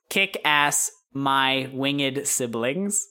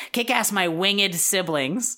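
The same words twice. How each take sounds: First: Slow, spaced-out words; writing aloud. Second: Higher, emphatic dictation; [name]. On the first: Girl writing in a notepad, slowly sounding out the message. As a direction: say each word slowly as if writing it. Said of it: "takes the notepad from you and writes". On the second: Friend dictating a message to send, higher voice. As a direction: settle on the final wording, pitched up. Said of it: "say, no, no". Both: Acted.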